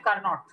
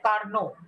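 First: The final t sound is pronounced. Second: The final t sound is silent. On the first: The speaker calls it wrong. "You don't say Carnot" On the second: The speaker calls it right. "You say Carnot. So T is silent"

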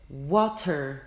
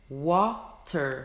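No difference in how they are said.

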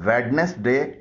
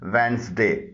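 First: The first 'd' sound is pronounced. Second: The first 'd' sound is silent. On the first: The speaker calls it wrong. "इसे वेडनेसडे न पढ़िएगा" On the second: The speaker calls it right. "इसमें डी खामोश है"

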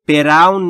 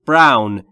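First: A vowel is inserted between the b and r. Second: The b and r are joined with no vowel. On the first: The speaker calls it wrong. "دوستان تلفظش براون نیست" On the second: The speaker calls it right. "بین بی و آر صدایی نیست"

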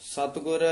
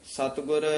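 No difference in how they are said.

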